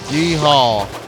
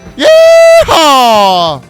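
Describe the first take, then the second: First: It is said with little conviction. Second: It is said with strong conviction.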